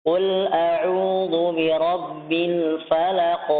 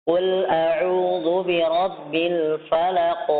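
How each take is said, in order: The two takes are said the same way.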